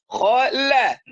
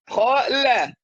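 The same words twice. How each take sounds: No difference in how they are said.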